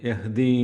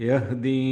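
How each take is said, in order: Both takes have the same delivery.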